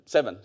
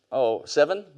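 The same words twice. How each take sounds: First: "Seven." falling, settled and sure; a final dropping "Seven."; settling tune. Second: Seven? rising as an unsure question; half-asking "seven?" with an upward tune. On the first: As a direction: confirm it flatly: "Seven.". Confirming daughter's age. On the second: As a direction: check the age with a lifted "seven?". Checking daughter's age aloud. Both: Real, not acted.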